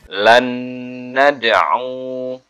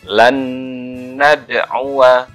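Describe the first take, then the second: First: The phrase ends on a vowelless w sound. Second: The phrase ends with a short vowel after w. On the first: The reader stops at this word. "kalau dibaca uh, wakof maka wawunya sukun" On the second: The reading continues on without stopping. "saya baca yang wasal dulu ya"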